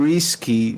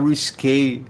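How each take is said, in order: First: It is said like the English word risky. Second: It is said the French way, ending in -é. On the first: The speaker calls it wrong. "ela fala assim" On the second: The speaker calls it right. "ela tá querendo falar risque"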